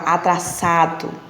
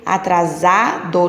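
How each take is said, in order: First: The middle consonant is a voiceless s sound. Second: The middle consonant is a voiced z sound. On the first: The speaker calls it wrong. "não fala atraçado" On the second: The speaker calls it right. "eu falo com som de Z"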